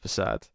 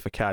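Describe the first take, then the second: First: The middle consonant is a soft s sound. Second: The middle consonant is a hard k sound. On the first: The speaker calls it right. "instead of facade" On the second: The speaker calls it wrong. "people get really annoyed when you say facade"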